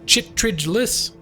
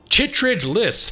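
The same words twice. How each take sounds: First: The name is said hesitantly and uncertainly. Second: The name is said firmly and confidently. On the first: "I'm being terrible" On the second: "as if it's something that I know how to say"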